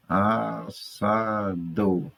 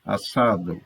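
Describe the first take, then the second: First: Very slow As-sa-do, each syllable stretched. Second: Said in the usual way. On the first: Shown as a demonstration. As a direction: break "Assado" into separate, drawn-out syllables. ("Assado" bem devagar, sílaba por sílaba) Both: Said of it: "aí está a separação silábica".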